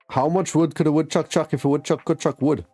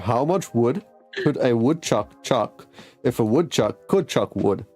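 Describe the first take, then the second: First: The sentence is spoken at a normal, quicker pace. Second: The sentence is spoken at a noticeably slower pace.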